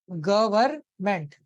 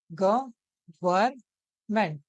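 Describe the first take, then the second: First: गवर्नमेंट drawn out slowly, falling at the end; slow syllable demo. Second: गवर्नमेंट as ग - वर्न - मेंट, each syllable held apart; very slow syllables. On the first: Teacher breaking गवर्नमेंट into syllables for students, slow. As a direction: stretch गवर्नमेंट so its syllables can be heard. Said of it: "देखिए". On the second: Teacher splitting गवर्नमेंट into three syllables, very slow. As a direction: spell out गवर्नमेंट very slowly, syllable by syllable. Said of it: "तीन हिस्से में तोड़ पा रहे हैं". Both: Shown as a demonstration.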